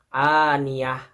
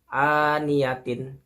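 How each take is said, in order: First: The word ends with a soft 'h' sound. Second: The word ends with a full 'tin' syllable. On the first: The reader stops at this word. "Apabila diwakofkan akan dibaca seperti itu" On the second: The reading continues without stopping. "Secara normalnya akan dibaca seperti ini ya, huruf ini ya, sebelum diwakofkan"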